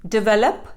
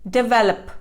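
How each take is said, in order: No difference in how they are said.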